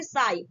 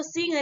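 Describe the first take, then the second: First: साई ending on an open vowel; silent GH. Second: सिंह said like "sing"; wrong sounded G. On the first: Teacher giving learners the reading, साई with silent GH. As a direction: leave GH out of साई. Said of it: "इसको हम क्या बोलेंगे". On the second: Teacher warning learners off a misreading, सिंह like "sing". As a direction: read sigh as सिंह, with a nasal ng. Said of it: "अब इसको सिंह नहीं पढ़ेंगे". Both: Shown as a demonstration.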